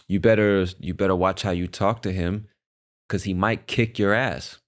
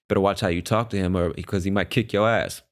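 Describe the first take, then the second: First: It is spoken slowly and clearly. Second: It is spoken at a natural, quicker pace. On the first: The speaker calls it wrong. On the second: The speaker calls it right.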